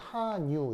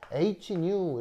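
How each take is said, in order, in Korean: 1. 이 글자는 독일어 'ha'처럼 읽어요. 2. 이 글자는 영어 'aitch'처럼 읽어요. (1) "하라고 해서 하, new 이렇게 읽기도 해요" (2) "H, new 이렇게 할 수도 있는데"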